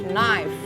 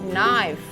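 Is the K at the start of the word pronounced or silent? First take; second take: silent; silent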